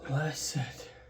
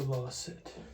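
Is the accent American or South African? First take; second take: American; South African. First: It is said in a plain American accent. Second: It is said in a South African accent.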